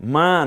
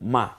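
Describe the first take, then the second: First: The vowel is drawn out long. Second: The vowel is cut short and quick. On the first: The speaker calls it wrong. "বলতে হবে মা না" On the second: The speaker calls it right. "হারাকাতের উচ্চারণ খুব দ্রুত করতে হয়"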